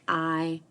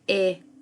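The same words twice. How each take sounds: First: The vowel is long, saying its letter name. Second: The vowel is a short sound, as in pig. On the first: "Listen to hear the letter name I" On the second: "The I is short and is saying its sound of I"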